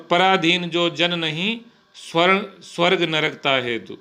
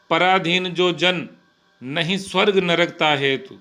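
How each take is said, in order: First: पराधीन जो जन नहीं in one phrase, then break; pause after नहीं. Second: पराधीन जो जन, then a pause, नहीं opens the next phrase; pause before नहीं. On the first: Teacher showing how a moved comma changes meaning, break after नहीं. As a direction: keep नहीं with जन, break before स्वर्ण. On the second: Teacher showing how a moved comma changes meaning, pause after जन. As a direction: break after जन, keep नहीं with स्वर्ग. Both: Shown as a demonstration. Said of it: "अल्प विराम का स्थान बदलकर".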